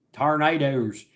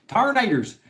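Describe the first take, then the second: First: Said in the usual way. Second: Tornadoes higher and louder each time; emphatic repeat. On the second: Shown as a demonstration. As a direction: build Tornadoes up dramatically. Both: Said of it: "repeated with rising emphasis".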